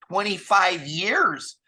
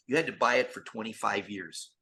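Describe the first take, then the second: First: "Twenty-five years!" said slowly, higher and louder; stress on years. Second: Said in the usual way. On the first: Real, not acted. Emphatic repeat of the figure.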